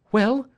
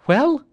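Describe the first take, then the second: First: High, louder rising question; eager cry. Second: Very high, loud rising question; more urgent cry. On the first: Wife greets the men at the door, high eager cry. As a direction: cry it out, hungry for news. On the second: Wife presses the silent men for news, very high urgent cry. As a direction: press hard for the answer, pitched right up. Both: Acted. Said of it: "she cried".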